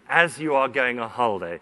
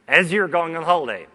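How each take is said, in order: First: "You are" is said as two full words. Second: "You are" is shortened to one syllable.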